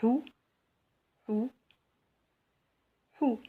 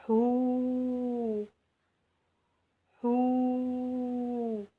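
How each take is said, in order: First: "Hou" with a short OO sound; short vowel. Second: "hou" with a long, level OO, higher; long vowel. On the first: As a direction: keep the vowel of "Hou" brief. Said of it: "on va voir les voyelles courtes". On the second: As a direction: sustain the vowel of "hou" on one raised note. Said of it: "La prolongation avec le waw". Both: Shown as a demonstration.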